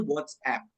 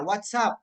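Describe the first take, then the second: First: WhatsApp as the app, ending in "app"; app-name pronunciation. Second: WhatsApp said like the greeting "what's up". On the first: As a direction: say WhatsApp as "wots-app", not the greeting. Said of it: "kalau yang aplikasi itu". (WhatsApp dilafalkan "wots-ep" sebagai nama aplikasi) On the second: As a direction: say WhatsApp as "wat-sap", asking for news. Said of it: "untuk menanyakan kabar". (WhatsApp diucapkan "wat-sap" seperti sapaan) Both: Shown as a demonstration.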